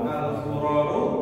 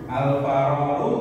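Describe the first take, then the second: First: The first syllable after al has the vowel u. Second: The first syllable after al has the vowel a. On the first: "antara fa atau fi atau fu" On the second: "antara fa atau fi atau fu"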